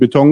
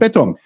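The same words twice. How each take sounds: First: The stress is on the second syllable. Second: The stress is on the first syllable. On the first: This is the usual pronunciation in Germany. "im Gegensatz zu Deutschland" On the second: This is the usual pronunciation in Switzerland. "dass die erste Silbe sehr häufig diejenige ist, die betont wird"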